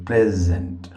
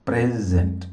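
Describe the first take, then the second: No difference in how they are said.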